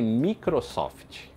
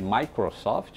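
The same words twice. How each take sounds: First: It is said with a Brazilian Portuguese pronunciation. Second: It is said with an English pronunciation. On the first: "todo mundo chamava de Microsoft" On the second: "a maioria daqui nem entendia"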